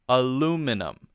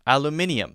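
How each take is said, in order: First: It is said with four syllables. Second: It is said with five syllables. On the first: "Americans will say aluminum" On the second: "British people will add an eum to it"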